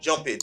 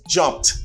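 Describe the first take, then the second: First: The ending is an extra syllable, like it. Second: The ending is a bare t sound. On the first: The speaker calls it wrong. "some people might say jump it. No, it's not like that" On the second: The speaker calls it right. "Now you have a t sound"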